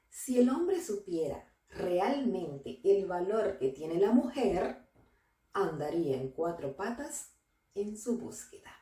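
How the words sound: There is a pause after the word mujer.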